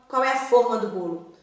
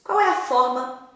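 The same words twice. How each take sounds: First: Forma with a closed o, as in baking tin. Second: Forma with an open o, as in 'shape'. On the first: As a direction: round the o of forma: FÔR-ma. (forma com o fechado, fôrma) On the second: (forma com o aberto, fórma) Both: Shown as a demonstration. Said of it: "se escrevem da mesma forma".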